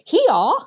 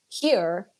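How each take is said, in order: First: It is said open-mouthed in a happy Australian style. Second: It is said in a plain, neutral way. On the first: "she's like here, like she's so happy" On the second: "if she says like here"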